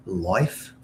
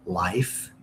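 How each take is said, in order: First: Life with "oi", like "loyf"; Canadian vowel. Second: Life with an open, drawn-out "ah-ee"; usual "ai" vowel. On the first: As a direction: round the I in life to "oi". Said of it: "it's oi, life". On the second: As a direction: say life with the American long I. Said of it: "So instead of life". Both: Shown as a demonstration.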